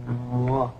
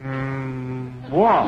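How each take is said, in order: First: "Moi" said soft and low, gently; "Moi" with a soft French glide. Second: "moi" with a hummed "Mm" lead-in and hard start; "Mm, moi" clumsy and forced; wrong pronunciation. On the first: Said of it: "Must be soft". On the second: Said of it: "No, no, no". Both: Shown as a demonstration.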